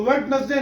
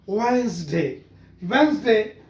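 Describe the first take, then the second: First: वेडनेसडे said as wed-nes-day, every letter sounded; wrong spelling pronunciation. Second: वेडनेसडे said as wenzday, first d silent; correct pronunciation. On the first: Teacher showing how students wrongly say it. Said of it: "नहीं है". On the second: Teacher modelling the correct word. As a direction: say वेडनेसडे as two syllables, wenz-day. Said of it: "वेडनेसडे नहीं है". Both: Shown as a demonstration.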